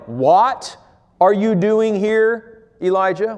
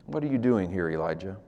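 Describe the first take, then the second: First: God's voice asking. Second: Hushed question. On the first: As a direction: draw it out like a searching call. Voicing God's question, slowed. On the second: God's question, quiet. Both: Acted.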